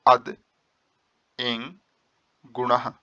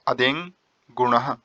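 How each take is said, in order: First: The first word is split into two separate parts. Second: The first word is said as one joined unit. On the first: "जो आप इसे तोड़ेंगे तो ये बनेगा अद एंग गुणः" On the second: "मैं आपको एक बार उच्चारण बता दूं।"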